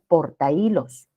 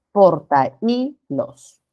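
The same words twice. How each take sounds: First: Said in the usual way. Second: Portahilos very slow, broken as por-ta-Í-los; hiato marcado. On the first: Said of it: "cuando decimos portahilos". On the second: Shown as a demonstration. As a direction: split the vowels in portahilos, stressing the Í. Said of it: "formar un hiato acentual". (portahilos muy lento, por sílabas, marcando la Í)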